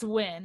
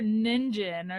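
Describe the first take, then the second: First: The name is said as one syllable. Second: The name is said with two syllables. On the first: The speaker calls it right. "it's Wynn" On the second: The speaker calls it wrong. "I said it like that"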